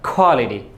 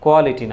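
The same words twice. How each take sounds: First: The first k has a strong puff of air. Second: The first k is plain, without a puff of air. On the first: The speaker calls it right. "ক প্রত্যেকটাকে তুমি খ বলে দিবা" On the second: The speaker calls it wrong. "কোয়ালিটি না"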